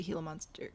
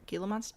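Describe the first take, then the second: First: Gila said "HEE-luh", starting with an H; Gila with silent G. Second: Gila tried as "GHEE-luh", with a hard G; Gila with sounded G. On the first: Gamer naming an exhibit option, Gila pronounced HEE-luh. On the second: Gamer testing the other pronunciation, Gila with a hard G. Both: Shown as a demonstration. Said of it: "Is it Gila or Gila?".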